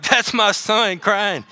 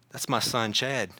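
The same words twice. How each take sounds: First: Higher, slow and drawn-out exclamation; emphatic proud recognition. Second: Low, soft and intimate murmur; quietly notice your own child, voice dropped; hushed recognition. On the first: God on the throne hearing his son cry, emphatic recognition. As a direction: stretch each word with fatherly urgency. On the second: God hearing Chad cry out from heaven, hushed recognition. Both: Acted.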